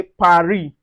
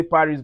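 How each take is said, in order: First: Paris with a silent final S, pa-REE; French Paris. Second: Paris with a sounded S, English style. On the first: Teacher showing students French Paris without the S. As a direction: drop the S in Paris, French style. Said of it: "but in French, we say Paris". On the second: Teacher contrasting the English way, Paris with final S. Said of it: "In English, we say Paris". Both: Shown as a demonstration.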